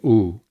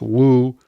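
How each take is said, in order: First: The vowel begins without any w sound. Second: The vowel begins with a w sound. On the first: This is the simpler everyday pronunciation. "we can often just say oo" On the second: This is the original older pronunciation. "It may have originally been pronounced woo"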